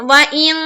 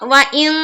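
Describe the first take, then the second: First: The nasal n sound is hidden and cut short. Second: The nasal n sound is hidden and cut short.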